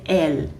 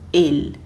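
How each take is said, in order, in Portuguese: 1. A vogal é pronunciada aberta. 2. A vogal é pronunciada fechada. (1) "a gente não vai dizer" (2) "e sim"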